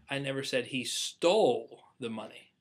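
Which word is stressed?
stole. The stress is on "stole".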